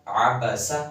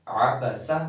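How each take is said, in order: Both takes have the same delivery.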